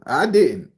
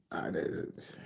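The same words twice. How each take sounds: First: Loud denial. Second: Breathy whisper, barely voiced; whispered denial. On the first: Streamer protests loudly to teasing chat. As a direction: shout the denial back at chat. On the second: Streamer whispers the denial back to teasing chat. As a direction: drop to a sly whisper. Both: Real, not acted.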